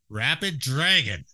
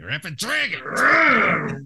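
First: It is said in a calm, neutral tone. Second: It is said in an angry tone.

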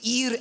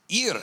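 First: It is said in a put-on French accent. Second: It is said in his own accent.

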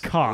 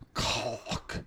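First: The word is said in a casual, loose way. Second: The word is said with careful enunciation. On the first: The speaker calls it wrong. "it's not cock" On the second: The speaker calls it right. "Listen, it's cock"

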